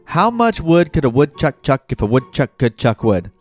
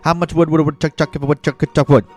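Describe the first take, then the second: First: It is said at a normal pace. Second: It is said at a fast pace.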